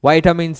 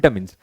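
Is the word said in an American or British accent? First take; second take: American; British. First: It is said in an American accent. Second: It is said in a British accent. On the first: "in American accent" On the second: "British English ಅನ್ನ follow ಮಾಡಿದ್ರೆ"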